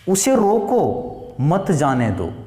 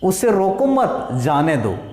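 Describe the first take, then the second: First: There is a pause after 'roko'. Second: There is a pause after 'mat'. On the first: Stop him and do not let him go. "उसे रोको, रुक गए" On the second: Do not stop him; let him go. "यहां ना लगा करके हमने यहां लगा दिया"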